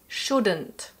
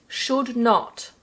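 First: It is said as one contracted word. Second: It is said as two full words.

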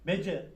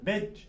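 First: A vowel is added after the final consonant. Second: The syllable stops on a held final consonant. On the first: The speaker calls it wrong. "Bece olmaz" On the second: The speaker calls it right. "Bakın B'yi C'ye çarptık. Tuttuk yani"

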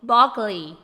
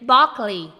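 The two takes are said the same way.

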